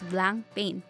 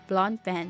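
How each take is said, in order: First: The name sounds like English 'blank pain'. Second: The name sounds like English 'blond pen'. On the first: The speaker calls it wrong. "you'll get face slaps if you refer to it as" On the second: The speaker calls it right. "Its pronunciation is"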